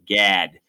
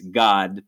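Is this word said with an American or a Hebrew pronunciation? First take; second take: American; Hebrew. First: The name is said in an upstate New York accent. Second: The name is said with a Hebrew pronunciation. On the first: "I said that in my best Rochester, New York accent" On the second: "in Hebrew, it's God"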